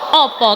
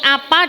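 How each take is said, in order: First: The vowels are rounded 'oh' sounds. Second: The vowels are open 'ah' sounds. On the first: This is how people speak in Surabaya. "di sana opo" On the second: This is how people speak locally. "Kalau di sini apa"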